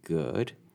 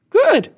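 First: The word is said at a normal pitch. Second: The word is said at a high pitch. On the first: "So it's the difference between good and good" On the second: "A high pitch may signify that someone is surprised or lying"

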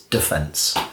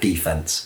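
First: It is said the British English way. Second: It is said the American English way. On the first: This is the form used for English sport. The speaker calls it right. "it's defence" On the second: This is the form used for American football. The speaker calls it wrong. "not defence"

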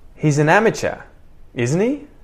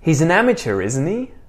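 First: Each word is said separately, without a linking R. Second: The words run together with a linking R. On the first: "first unlinked or unconnected"

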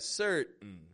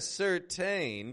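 First: The T is released through the nose. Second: The T is released clearly through the mouth. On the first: The speaker calls it right. "The T is coming through my nose" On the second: The speaker calls it wrong. "It's not a certain"

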